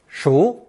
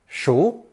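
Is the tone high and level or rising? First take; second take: rising; rising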